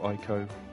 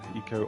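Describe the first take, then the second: First: The first syllable does not sound like 'ecology'. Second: The first syllable sounds like 'ecology'. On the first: "I say Ico" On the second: "Eco to me is Eco, E C O, as in like ecology"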